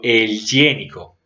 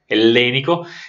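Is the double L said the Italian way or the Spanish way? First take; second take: Spanish; Italian. First: The double L is said the Spanish way. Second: The double L is said the Italian way. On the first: This is how the Spanish conquerors said it. "en español la doble L no es la doble L a la italiana" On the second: This is the original Greek-derived name. "la doble L a la italiana"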